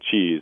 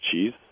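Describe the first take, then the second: First: The word ends with a voiced z sound. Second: The word ends with a voiceless s sound. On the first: "the Z at the end of the word is the voiced sound" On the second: "the unvoiced counterpart of that is an S"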